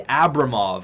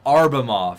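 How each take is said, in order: First: The name starts with an 'ab' sound. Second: The name starts with an 'ar' sound. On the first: The speaker calls it right. "It's actually Abramov" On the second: The speaker calls it wrong. "you're pronouncing it wrong"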